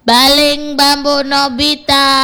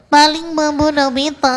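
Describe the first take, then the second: First: It is said without a strongly nasal voice. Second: It is said in a strongly nasal voice.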